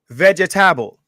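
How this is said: It is said in a Caribbean accent. "They say vegetable"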